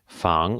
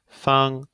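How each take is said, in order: First: The pitch rises from mid to high. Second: The pitch stays high and level. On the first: It means to protect or guard. "in the second tone, we have 防" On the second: It means square or convenient. "in the first one we have feng"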